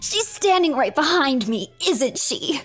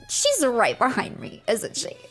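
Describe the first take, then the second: First: It is said in an imitation of Deku. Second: It is said in her own natural voice.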